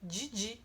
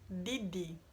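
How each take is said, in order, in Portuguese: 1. O d antes do i soa como 'dj'. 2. O d antes do i é um d simples. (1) "aqui na minha região pelo menos é assim, a gente pronuncia Didi" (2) "e não Didi"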